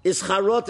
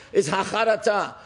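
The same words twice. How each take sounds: First: "Charot" in Ashkenazi Hebrew; "Charot" as an Ashkenazi speaker says it; Ashkenazi pronunciation. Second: Quoted Sephardic Hebrew pronunciation; Sephardic accent. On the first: Shown as a demonstration. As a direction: say "Charot" with Ashkenazi vowels and ending. Same word in his Ashkenazi pronunciation. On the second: Retold or imitated. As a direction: say "Hacharata" the Sephardic way, with a T. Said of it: "used to say it in a Sephardic accent".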